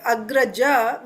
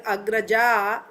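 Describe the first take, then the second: First: Agraja ending on a short 'a'; short final a. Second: Agraja with the final 'a' held long. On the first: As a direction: keep the last vowel of agraja short. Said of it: "Agraja means a male". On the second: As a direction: stretch the last vowel of agraja into 'aa'. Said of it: "agraja means a female". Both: Shown as a demonstration.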